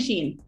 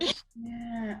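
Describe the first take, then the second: First: It sounds like sheen, with one long vowel. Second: It sounds like French chien, with two vowels. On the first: "I've been saying Sheen" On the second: "the way you say dog in French"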